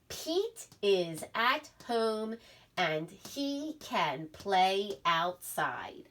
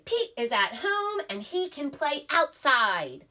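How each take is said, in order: First: It is read in a calm, ordinary voice. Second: It is read with lively, excited expression. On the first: The sentence ends with a period. "I was reading it in a regular voice" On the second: The sentence ends with an exclamation point. "you'd have to read with expression"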